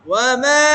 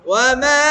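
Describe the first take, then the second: Both takes have the same delivery.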